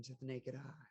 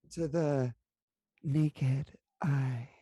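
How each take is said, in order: First: Said in the usual way. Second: Drawn-out, louder mock-sultry voice. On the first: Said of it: "we're still in sultry mode". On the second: Player repeating her phrase for the table, sultry. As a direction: lean into a put-on sultry purr. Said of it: "'Cause we're still in sultry mode".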